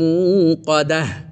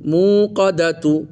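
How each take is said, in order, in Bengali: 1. শব্দটি 'h' ধ্বনি দিয়ে শেষ হয়। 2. শব্দটি 'tu' ধ্বনি দিয়ে শেষ হয়।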